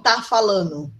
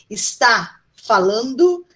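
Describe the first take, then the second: First: The first syllable of 'está' is dropped. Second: The first syllable of 'está' is pronounced.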